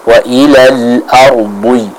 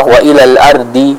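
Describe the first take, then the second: First: Slow, drawn-out wa ilal ardi with heavy D; slow correct recitation, full thick dhad in ardi; thickened dhad. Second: Wa ilal ardi with a thin, ordinary D; light-D demo of wa ilal ardi; dhad as plain dal. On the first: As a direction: stretch it out, ardi's D emphatic, towards "ardhwi". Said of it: "menebalkan pengucapan dari huruf dhad". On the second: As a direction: show the common mistake, ardi with a light D. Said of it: "seperti huruf dal". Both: Shown as a demonstration.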